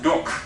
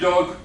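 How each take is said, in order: First: The final consonant is a voiceless k. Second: The final consonant is a voiced g. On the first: The speaker calls it wrong. "becomes doc" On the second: The speaker calls it right. "English dog"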